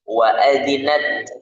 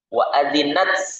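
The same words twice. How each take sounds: First: The final t is released cleanly without hissing. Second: The final t carries a hissing s-like sound. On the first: The speaker calls it right. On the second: The speaker calls it wrong.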